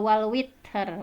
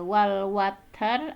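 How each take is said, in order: First: The vowel after w is an i sound. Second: The vowel after w is an a sound. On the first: "atau bi kasriha" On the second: "bi fathil waw"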